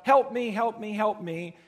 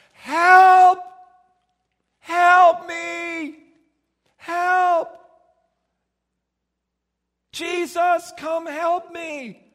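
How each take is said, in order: First: Mild beggar's plea, a touch louder; calling out for help by the roadside, lightly voiced; beggar crying out. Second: High, loud desperate shouting, slowing at the end. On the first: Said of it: "he would cry out". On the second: Acted. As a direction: blind beggar screaming to Jesus for help. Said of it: "And Bartimaeus started going".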